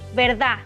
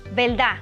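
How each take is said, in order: First: The final d is dropped. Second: The final d is dropped.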